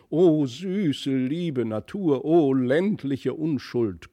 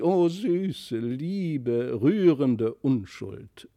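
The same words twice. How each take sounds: First: High, slow, hammed-up cooing; lightly voiced grand lady exclaiming; loud gushing exclamations. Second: Lightly voiced grand lady gushing; gushing exclamation. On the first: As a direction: coo over the children theatrically. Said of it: "unter lauten Ausrufungen". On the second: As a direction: swoon over the child like a sentimental countess. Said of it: "Da rief sie". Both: A narrator's reading.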